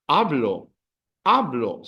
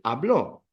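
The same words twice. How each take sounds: First: Hablo stressed firmly on HA, falling away; stress on second-last syllable. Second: Hablo wrongly stressed on the final -BLO. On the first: Teacher correcting students on the emphasis, first-syllable stress. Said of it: "second last syllable". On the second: Teacher warning students what not to say, final-syllable stress. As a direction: push "hablo" onto its last syllable. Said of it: "don't say hablo". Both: Shown as a demonstration.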